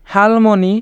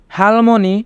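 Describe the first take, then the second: No difference in how they are said.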